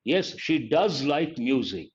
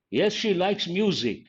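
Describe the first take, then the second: First: Slowly, with stress on "does"; emphatic DOES. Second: Said in the usual way. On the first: Shown as a demonstration. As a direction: lean on "does" to insist, unhurried. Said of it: "you're trying to emphasize".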